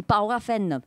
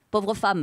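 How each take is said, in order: First: «pauvre femme» said the patois way, like "paura femna"; «pauvre femme» in Occitan sounds, vowels opened; «pauvre femme» in her self-mocking patois accent. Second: Said in the usual way. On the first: Shown as a demonstration. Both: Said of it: "vous allez rire de mon accent".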